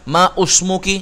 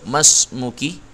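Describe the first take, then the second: First: The vowel after ma is said separately. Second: Ma runs straight into smuki without vowel. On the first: The speaker calls it wrong. "Nggak kita baca ... ma usmuki. Ah, ini fatal ini" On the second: The speaker calls it right. "Hamzahnya nggak dianggap, langsung masuk"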